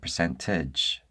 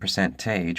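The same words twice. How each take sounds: First: The final vowel is a short E/I. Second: The final vowel is a long A. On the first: "a sound that varies from the short E to the short I sound" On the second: "instead of making the long A sound"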